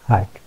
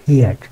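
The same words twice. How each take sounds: First: হার্ড said low and soft as one syllable "hard"; হার্ড with the vowel of "her"; correct heard. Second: হিয়ার্ড said as "hee-ard"; mock the two-syllable হিয়ার্ড; হিয়ার্ড with an "ee" vowel; wrong heard. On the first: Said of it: "এটা হিয়ার্ড না". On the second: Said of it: "কীভাবে উচ্চারণ করে". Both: Shown as a demonstration.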